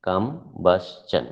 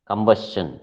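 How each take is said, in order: First: Combustion slowly in three beats, kum, bus, chun; syllable by syllable. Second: Said in the usual way. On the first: Shown as a demonstration. Teacher counting three syllables for the class, syllable by syllable. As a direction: pull combustion apart with a pause after each syllable. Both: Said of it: "three syllables".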